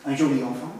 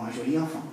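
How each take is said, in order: First: Secondary accent on "joli"; stress on JOLI. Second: Softer phrase, "joli" unaccented, rising on "enfant"; stress on ENFANT. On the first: Lecturer shows an alternative accent, stressing "joli". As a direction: bring out "joli" before reaching "enfant". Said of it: "pas forcément sur la dernière syllabe de joli". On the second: Lecturer gives the other acceptable version, stress on "enfant". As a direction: save the accent for "enfant". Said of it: "ça choque pas de dire les deux". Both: Shown as a demonstration.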